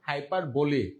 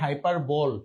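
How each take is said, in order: First: The word ends on an ee vowel. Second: The word ends on an l sound. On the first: The speaker calls it right. "উচ্চারণ কি হাইপার বলি" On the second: The speaker calls it wrong. "অনেকে উচ্চারণ করেন হাইপার বল, not বল"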